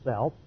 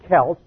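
First: The word begins with a soft S sound. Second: The word begins with a hard K sound. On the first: The speaker calls it wrong. "they're not Celts" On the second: The speaker calls it right. "they're Celts"

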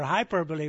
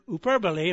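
First: It is pronounced the usual English way. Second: It is pronounced the Greek way. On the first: It is the word in everyday speech. "or hyperbole, we would say" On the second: It is the original word in the text. "more is the word hyperbole"

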